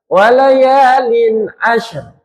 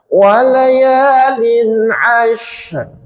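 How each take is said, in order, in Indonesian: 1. Bunyi sh dipendekkan, langsung masuk ke r. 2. Bunyi sh dipanjangkan sebelum r. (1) "Contohnya lek syiddah semua gitu" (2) "sempurnakan bunyi sinnya dulu baru di R kan"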